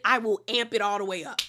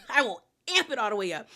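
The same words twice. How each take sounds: First: Said in the usual way. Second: Fast, laughing repeat. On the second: Shown as a demonstration. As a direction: laugh it out quickly, amping it up.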